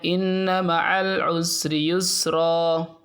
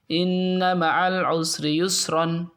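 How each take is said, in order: First: The last word ends in a long vowel. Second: The last word ends in an n sound. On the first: The speaker calls it right. "Cara membacanya" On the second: The speaker calls it wrong. "gak boleh dibaca yusron"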